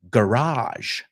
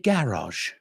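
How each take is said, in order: First: It is said with an American pronunciation. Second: It is said with a British pronunciation. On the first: "the Americans say garage" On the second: "British people say garage"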